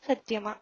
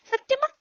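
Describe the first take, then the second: First: Said in the usual way. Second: Put-on high rising சத்தியமா asked like a hopeful child; pleading question. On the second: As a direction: beg for the promise. Husband begs for a promise. (சத்தியமா என்று உயர்ந்த குரலில் கெஞ்சுதல்)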